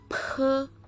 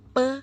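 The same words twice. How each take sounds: First: The consonant is released with a puff of air. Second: The consonant is released without a puff of air.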